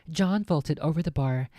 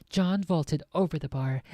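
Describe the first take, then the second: Both takes have the same delivery.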